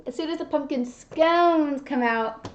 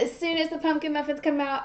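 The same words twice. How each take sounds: First: "scones" stretched long for correction; slow down and draw out "scones"; stress on scones. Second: Said in the usual way. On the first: Real, not acted. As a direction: lean hard on a lengthened "scones". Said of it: "not pumpkin muffins, pumpkin scones". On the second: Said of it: "not pumpkin muffins".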